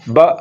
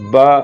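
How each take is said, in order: First: The syllable is cut off with an abrupt jolt. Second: The syllable is said smoothly, without a jolt. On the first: The speaker calls it wrong. "یہ جھٹکے کے ساتھ ہے" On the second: The speaker calls it right. "اس کو پڑھیں گے با با"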